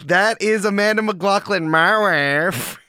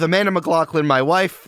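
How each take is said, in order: First: It is said in a Borat impression. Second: It is said in his normal voice.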